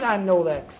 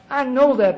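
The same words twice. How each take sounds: First: Said in the usual way. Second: Higher and louder repeat, fed up; exasperated angry repeat of "I know that"; angry retort. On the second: Retold or imitated. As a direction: bark it back at the sponsor.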